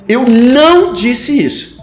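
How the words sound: The stress falls on the word não. Many other things were said, but not this. "coloco a ênfase no não"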